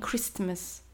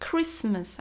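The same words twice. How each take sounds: First: The T sound is clearly pronounced. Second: The T sound is silent. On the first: The speaker calls it wrong. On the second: The speaker calls it right.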